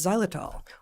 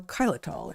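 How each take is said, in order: First: The word starts with the usual 'z' sound. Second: The word starts with the brand's 'X' sound.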